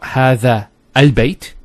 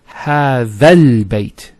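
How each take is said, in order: First: The second word starts with its own glottal stop. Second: The first word runs straight into the second. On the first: The speaker calls it wrong. "it's not ... You don't pronounce this Hamzat al-Wasl here" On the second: The speaker calls it right. "how do we pronounce it? It's"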